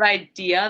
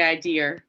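First: Said in the usual way. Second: Maine-style "idea" ending in an added R; Maine accent. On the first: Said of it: "Instead of idea". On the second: Shown as a demonstration. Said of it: "they say idea".

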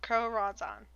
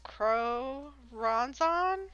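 First: "Crow Ronzon" said quicker and softer with a falling close, decided; settled pronunciation. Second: "Crow Ronzon" sounded out very slowly with a questioning lift, testing the name; unsure pronunciation. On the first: Host settles on the demon's name and moves on, decided. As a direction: commit to "Crow Ronzon" in a quick, final fall. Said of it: "That's what it looks like". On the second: Podcaster sounds out a demon's name for listeners, slow and unsure. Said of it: "I really hope I say this right". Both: Shown as a demonstration.

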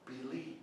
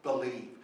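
First: Much softer, gentle rising "Believe."; soft invitation. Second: Said in the usual way. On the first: Shown as a demonstration. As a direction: offer "Believe." softly as an invitation. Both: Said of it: "He says".

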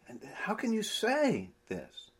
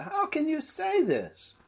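First: Whispered, pressing and incredulous; exasperated whisper. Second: Exasperated Jesus. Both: Acted. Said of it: "trying to show the mood of his questioning".

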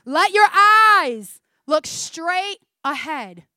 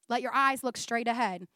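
First: Very slow and louder, proclaimed; slow emphatic reading. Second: Said in the usual way. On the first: Shown as a demonstration. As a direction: proclaim each word slowly to the room. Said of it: "I'm gonna read it slowly so it sinks in". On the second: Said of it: "I'm gonna read it slowly".

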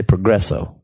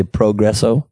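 First: "progresso" with a short, reduced "pruh"; own pronunciation. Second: "progresso" with a long "pro", as a question; imitated pronunciation. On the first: Shown as a demonstration. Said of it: "I say progresso". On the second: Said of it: "You say progresso?".

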